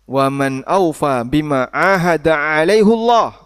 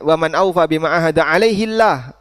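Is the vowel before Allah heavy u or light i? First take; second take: heavy u; light i. First: It ends alaihu, with a heavy, full Allah. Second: It ends alaihi, with a light, thin Allah.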